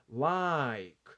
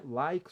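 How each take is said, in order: First: "Like" drawn out as one syllable; one mouth movement. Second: Said in the usual way. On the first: Shown as a demonstration. Teacher showing one movement of the mouth, "Like" slowly drawn out. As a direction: stretch "Like" in a single open-and-close glide. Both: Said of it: "só um movimento de boca".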